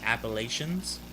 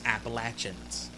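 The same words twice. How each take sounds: First: It is pronounced the way outsiders say it. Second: It is pronounced the way locals say it. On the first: The speaker calls it wrong. "It's not" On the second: The speaker calls it right. "Somebody lives here. That's how we pronounce it"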